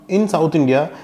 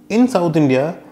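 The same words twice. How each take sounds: The two takes are said the same way.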